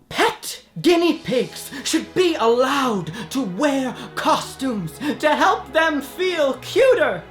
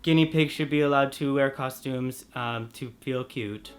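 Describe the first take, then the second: First: It is said with dramatic emotion. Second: It is said flatly, without emotion.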